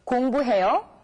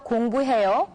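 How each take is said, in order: First: The voice rises slightly at the end. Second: The voice drops slightly at the end. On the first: It asks whether someone is studying. "just raise the tone of your voice a little bit at the end of the sentence, like this" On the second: It states that one is studying. "with the voice dropping slightly at the end"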